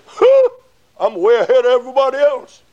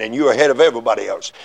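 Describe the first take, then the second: First: High, fast self-satisfied scoff; smug boast. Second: Said in the usual way. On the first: Retold or imitated. Backslider boasting he's ahead of others, high smug scoff. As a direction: scoff proudly at everyone else. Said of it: "you'll say". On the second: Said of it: "you are".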